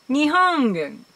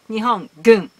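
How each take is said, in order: First: The g is a soft nasal ng sound. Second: The g is a plain hard stop. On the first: "just place tongue at the English point when you pronounce" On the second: "It's much easier than to say"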